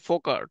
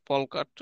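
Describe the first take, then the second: First: The L in folk is silent. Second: The L in folk is pronounced. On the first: The speaker calls it right. "উচ্চারণ হচ্ছে ফোকাট" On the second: The speaker calls it wrong. "ফলকাট উচ্চারণ ভুল হয়"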